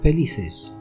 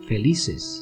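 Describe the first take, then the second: First: The 'c' is a soft 'th' sound. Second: The 'c' is a plain 's' sound. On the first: This is how it is said in Spain. "the sound C in the word felices is used in Spain" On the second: This is how it is said in Latin America. "this sound is replaced by an unvoiced S"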